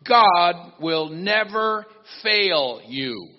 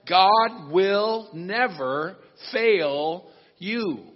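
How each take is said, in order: First: It is said at normal speed. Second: It is said very slowly and carefully.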